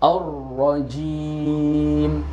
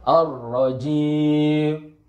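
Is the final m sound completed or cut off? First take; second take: completed; cut off. First: The final m is held with lips fully closed. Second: The final m is cut off and unclear. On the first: The speaker calls it right. "ketika mulut kita rapat, maka sempurnalah huruf mim" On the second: The speaker calls it wrong. "Jangan kita tinggal ar-rajim. Gak jelas"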